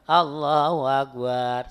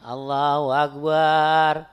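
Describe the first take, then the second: First: The final syllable bar is drawn out long. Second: The final syllable bar is drawn out long.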